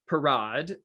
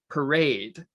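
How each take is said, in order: First: The word is said with a French pronunciation. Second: The word is said with an English pronunciation. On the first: It means a circus sideshow in front of the tent. "why am I pronouncing it so pretentiously?" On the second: It means a public procession with floats and bands. "the English word parade"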